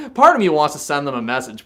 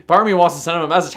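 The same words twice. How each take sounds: First: Said in the usual way. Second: Fast and a bit louder, eager; rushed repeat. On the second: Real, not acted. Streamer getting excited about taunting the friend, rushed. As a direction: rattle it off, warming to the idea.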